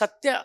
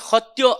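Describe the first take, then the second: First: The word begins with an s sound. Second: The word begins with an h sound. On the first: "సత్య అని ఉందనుకోండి" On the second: "దాన్ని హొత్యో అంటారనమాట"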